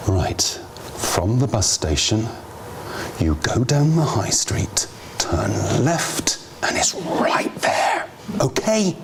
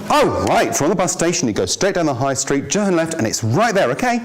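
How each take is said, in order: First: Bored, dismissive directions. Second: Friendly, helpful directions. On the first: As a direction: mumble it like the asker is a nuisance. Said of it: "the first version is not gonna get them anywhere near". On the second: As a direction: give directions like you're glad to help. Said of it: "the first version". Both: Shown as a demonstration.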